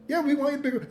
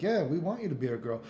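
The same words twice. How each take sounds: First: Higher, put-on voice of society agreeing; mock society voice. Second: Said in the usual way. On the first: Streamer voicing society answering Bridget, mock eager. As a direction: play the eager crowd saying yes. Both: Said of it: "They're like".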